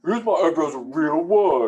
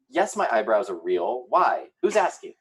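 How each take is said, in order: First: Higher, louder laughing Eric impression. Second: A hint of Sarah, rising defensively; sassy defensive Sarah; Sarah impression. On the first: Cohost redoing the caption in an Eric voice, laughing. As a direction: ham up Eric defending his eyebrows. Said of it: "My Eric voice". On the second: Host imitating Sarah defending her eyebrows, lightly voiced. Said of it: "That was my best Sarah impression".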